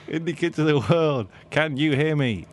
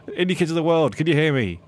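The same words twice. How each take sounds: First: Laughing through a rallying call; rally the crowd, cracking up; announcing on a microphone. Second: Loud rallying call, a bit higher; announcing on a microphone. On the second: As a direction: call out to the crowd over a PA. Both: Acted. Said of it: "on the microphone at the main stage".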